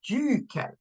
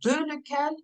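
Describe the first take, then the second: First: It is said as one contracted word. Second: It is said as two separate words. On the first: The speaker calls it right. "You have to say duquel" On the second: The speaker calls it wrong. "can I say de lequel? No"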